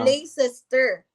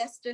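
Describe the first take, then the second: First: It is said fully, following the spelling. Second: It is said in a shorter, reduced form. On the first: This is how it looks when read literally. The speaker calls it wrong. "'pag basahin mo talaga siya" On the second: This is how it is actually said. The speaker calls it right. "yun pala Leicester Square"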